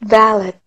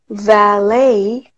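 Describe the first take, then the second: First: The stress is on the first syllable. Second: The stress is on the second syllable. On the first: "아니면 두 번째 것처럼 해서 valet" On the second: "처음 것처럼 해볼게요"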